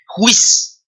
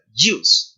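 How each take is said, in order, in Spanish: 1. Empieza con una j española, fuerte y gutural. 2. Empieza con un sonido suave y mezclado de d-y. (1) "no se pronuncia como nuestra J, no se pronuncia como Juan" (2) "Es como una D Y ahí medio solapadita"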